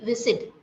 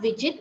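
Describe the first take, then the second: First: The middle consonant is a hissing s. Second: The middle consonant is not a hissing s. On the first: The speaker calls it right. "The sound of S is s, s" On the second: The speaker calls it wrong. "you are reading it as widget. It is not widget"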